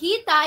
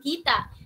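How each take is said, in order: First: The word ends without a glottal stop. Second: The word ends with a glottal stop. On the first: The speaker calls it right. "ay malumanay" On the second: The speaker calls it wrong. "na pagkakamalang malumi"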